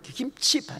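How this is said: Said as two syllables, kim-chi. "우리 김치"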